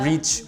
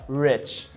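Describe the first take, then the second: First: The word is said with a Portuguese-style vowel. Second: The word is said with an English-style vowel. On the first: The speaker calls it wrong. "sometimes I do like a Portuguese pronunciation of English" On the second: The speaker calls it right. "because English is like rich"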